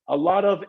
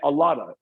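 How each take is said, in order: First: The word 'of' is said fully. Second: The word 'of' shrinks to a short vowel.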